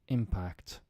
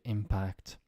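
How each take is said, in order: First: The stress is on the first syllable. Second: The stress is on the second syllable. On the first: It is used as a noun. "think of it now as nouns" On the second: It is used as a verb. "to impact"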